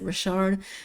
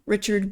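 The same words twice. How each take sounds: First: The name is said with a French pronunciation. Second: The name is said with an English pronunciation. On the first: "the French pronunciation" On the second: "I pronounce the last name Richard"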